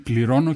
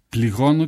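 First: The r sound is pronounced as a clear r. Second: The r sound is lisped into a soft g. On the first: It means 'I pay'. "αυτό να σημαίνει πληρώνω" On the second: It can be heard as 'I hurt'. "με αυτό το πολύ χαρακτηριστικό ψεύδισμα που είχε"

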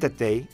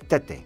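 First: The name ends with an added 'ee' glide. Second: The name ends in a plain 'eh' vowel. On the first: This is how the passport spelling reads. The speaker calls it wrong. "Δεν Τετέι" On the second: This is how the player himself says it. The speaker calls it right. "είναι Τέτε"

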